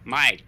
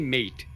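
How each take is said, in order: First: The word is said with an Australian accent. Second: The word is said with an American accent. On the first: The speaker calls it right. "they say mate" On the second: The speaker calls it wrong. "Australians don't say mate"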